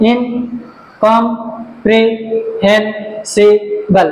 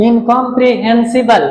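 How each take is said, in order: First: "ইনকম্প্রিহেনসিবল" slowly in six separate beats; syllable by syllable. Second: Said in the usual way. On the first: Shown as a demonstration. Teacher showing six syllables, "ইনকম্প্রিহেনসিবল" slowly divided. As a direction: pause after each syllable of "ইনকম্প্রিহেনসিবল". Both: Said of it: "syllable আছে".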